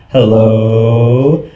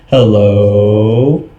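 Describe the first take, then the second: No difference in how they are said.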